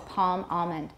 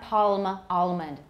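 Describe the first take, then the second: First: The L is only a tensing of the tongue back. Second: The L is pronounced as a full, complete L. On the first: "A lot of people have velarization for that L" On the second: "But it's not palm almond. 那就很少"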